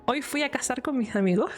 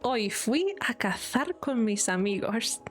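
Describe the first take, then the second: First: It is said in the speaker's softer regional accent. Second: It is said in central Castilian Spanish.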